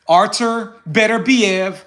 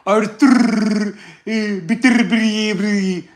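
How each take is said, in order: First: The name is said in a plain American accent. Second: The name is said in a put-on foreign accent. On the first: "I have an American accent" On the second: "put no fake accent and be like"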